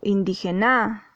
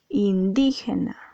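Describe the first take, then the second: First: The stress falls on a syllable other than di. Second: The stress falls on the second syllable, di. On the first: The speaker calls it wrong. "tú no dices indígena o indígena" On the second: The speaker calls it right. "Aquí la sílaba di está acentuada. ... dices indígena"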